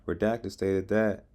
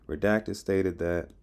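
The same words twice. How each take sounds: The two takes are said the same way.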